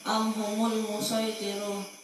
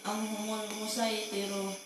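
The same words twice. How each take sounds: First: The s sound is emphatic, like Arabic sad. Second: The s sound is plain, like Arabic sin. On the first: "sodnya tetap dibaca sod" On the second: "dan juga boleh dibaca sin"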